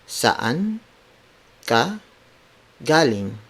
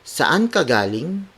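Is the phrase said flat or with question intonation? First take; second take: flat; question. First: It is said flatly, word by word, without question intonation. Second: It is said with a questioning intonation. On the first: "let's do it word for word" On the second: "Now let's apply the intonations, the question intonations"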